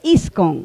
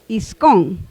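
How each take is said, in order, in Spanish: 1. El acento está en la primera sílaba. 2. El acento está en la segunda sílaba. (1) "Pero se dice iscon, no obedece la regla del acento" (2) "debería jalar el acento. Debería ser iscón"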